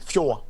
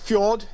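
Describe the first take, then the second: First: The word has a native Norwegian pronunciation. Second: The word has a standard English pronunciation. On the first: "in my case, in native speak, that would be fjord" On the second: "But fjord is the correct English uh, pronunciation"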